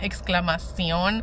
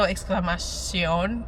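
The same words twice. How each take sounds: First: The x is said as a 'ks' sound. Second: The x is said as a 'sh' sound. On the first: This is the usual pronunciation in the speaker's Spanish. "In like my Spanish, I think in general it's like" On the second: This matches the feel of the English version. "they went with like a sh, which is sh"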